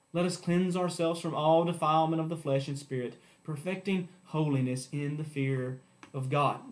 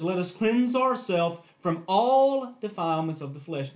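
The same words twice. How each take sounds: First: Said in the usual way. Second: All given extra weight and length; stress on all. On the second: Shown as a demonstration. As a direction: press hard on the word all in "from all defilements". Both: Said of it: "let me emphasize that word all".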